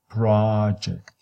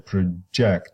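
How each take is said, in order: First: The stress is on the first syllable. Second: The stress is on the second syllable. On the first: "If you say this is a noun, ... so your stress is at the beginning" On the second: "if you move the stress to the second syllable, you have to make the ah weaker"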